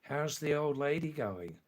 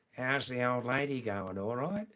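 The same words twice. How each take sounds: First: Said in the usual way. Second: Broad Aussie vowels, rising check at the end; original Australian accent. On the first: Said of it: "I'll say it slowly this time". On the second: Shown as a demonstration. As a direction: ask it like an Australian mate. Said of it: "In original Australian".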